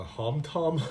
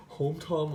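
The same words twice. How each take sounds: First: "Hom" with an open "ah", like "hahm"; tentative pronunciation. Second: "Hom" with a long o, like "home"; alternative pronunciation. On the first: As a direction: say "Hom Tom" as "hahm tahm". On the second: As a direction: say "Hom Tom" as "home tahm". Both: Shown as a demonstration. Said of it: "I don't know how to pronounce this brand".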